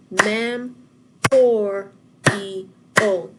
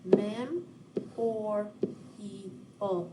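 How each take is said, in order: First: Mem or E O loud, each syllable punched apart; clapped syllables. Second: Mem or E O softly spaced out, fading; gentle clap: Mem, or, E, O; softer clapped syllables. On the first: Teacher retrying the clap after a mistake, loud. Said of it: "Let's try again". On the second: Teacher repeating the syllables for students, softer. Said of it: "That's is much better". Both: Shown as a demonstration.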